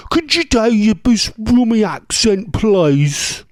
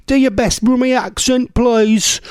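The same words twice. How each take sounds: First: Drawn-out, exaggerated Brummie accent; broad Brummie accent. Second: High-pitched plea in a Brummie accent. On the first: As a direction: lay the Brummie on thick, stretching the vowels. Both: Shown as a demonstration. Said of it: "There's mine".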